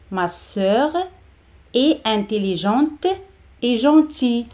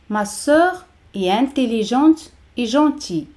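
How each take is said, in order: First: "Ma sœur", pause, "est intelligente", pause, "et gentille"; chunk by chunk. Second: Said in the usual way. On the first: Shown as a demonstration. Model broken into chunks for learners.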